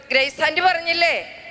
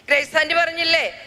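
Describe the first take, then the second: No difference in how they are said.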